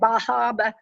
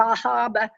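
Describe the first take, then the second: First: It is said in a Northeastern accent. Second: The same.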